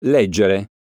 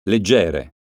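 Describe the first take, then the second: First: Leggere said as LEGgere, first syllable stressed; stress on LEG. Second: Leggere said as legGEre, middle syllable stressed. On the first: Teacher contrasting homographs for pupils, LEGgere stressed. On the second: Teacher contrasting homographs for pupils, legGEre stressed. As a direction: lean on GE of Leggere. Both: Shown as a demonstration. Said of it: "Eccone alcuni esempi".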